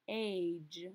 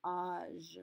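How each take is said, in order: First: "age" with the English ay vowel, the wrong way. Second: "Âge" with an open ah vowel; French âge. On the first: Teacher showing students the wrong English vowel. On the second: Teacher contrasting the French and English vowel for students. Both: Shown as a demonstration. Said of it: "not age".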